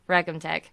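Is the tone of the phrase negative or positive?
negative. It is said in a gloomy, negative tone. The team lost the game. "And if we lose a game"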